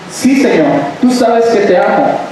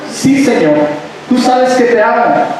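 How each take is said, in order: Both takes have the same delivery.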